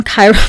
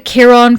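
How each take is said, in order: First: Chiron said as KY-ron; English pronunciation. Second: Chiron said as KEER-on; alternate pronunciation. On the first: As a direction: open Chiron with KY, rhyming with eye. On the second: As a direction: open Chiron with a short KEER, not KY. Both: Real, not acted. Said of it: "never know how to fully pronounce".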